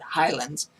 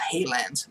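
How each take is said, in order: First: The first syllable sounds like 'high'. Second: The first syllable sounds like 'hay'. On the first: The speaker calls it right. "that's how you pronounce it" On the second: The speaker calls it wrong. "not Haylands"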